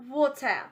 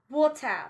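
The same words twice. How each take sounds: No difference in how they are said.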